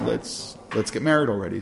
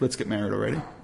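First: It is said in an impatient, exasperated tone. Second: It is said in a warm, romantic tone. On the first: The speaker feels too much time has been wasted. "why have we been wasting so much time?" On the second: The speaker is hopeful about a shared future. "It could be very romantic"

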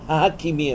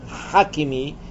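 First: The name starts with a plain h sound. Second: The name starts with a throaty ch sound. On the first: The speaker calls it wrong. "ההכימי הם אומרים" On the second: The speaker calls it right. "לא אומרים חכימי"

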